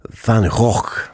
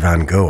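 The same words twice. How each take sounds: First: The name is said the Dutch way, throaty. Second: The name is said the British way.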